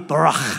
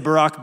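First: It ends with a harsh sound from the throat. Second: It ends with a plain English k sound. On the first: The speaker calls it right. "like you got a little piece of popcorn stuck in the back of your throat" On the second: The speaker calls it wrong. "that's our English butchering of barak"

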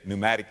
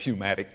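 First: The initial p is silent before the n. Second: The initial p is sounded before the n. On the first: The speaker calls it right. "We say a pneumatic tire" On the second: The speaker calls it wrong. "We don't say a pneumatic tire"

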